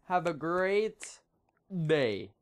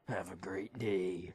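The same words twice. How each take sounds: First: It is said in his normal voice. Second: It is said in a put-on Batman voice.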